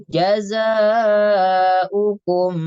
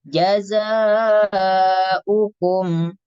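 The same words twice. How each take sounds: The two takes are said the same way.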